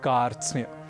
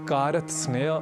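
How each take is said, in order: First: No extra vowel splits the consonant cluster. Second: One extra vowel splits the consonant cluster. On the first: The speaker calls it right. "हमें कहना है" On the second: The speaker calls it wrong. "आदि न कहकर"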